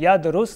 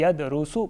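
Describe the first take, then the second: First: The word ends on the consonant s. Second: The word ends in a short u vowel. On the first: The speaker calls it wrong. "यदरुसा या यदरुस नहीं पढ़ेंगे" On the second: The speaker calls it right. "बल्कि यदरुसु पढ़ेंगे"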